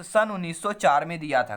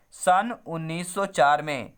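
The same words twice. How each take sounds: First: Said in the usual way. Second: "सन उन्नीस सौ चार में" said slowly, each word set apart; teacher slowing down so the year sticks; slow drilled answer. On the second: Shown as a demonstration. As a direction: spell the year out slowly for the class to memorise. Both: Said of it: "कब दिया था भैया?".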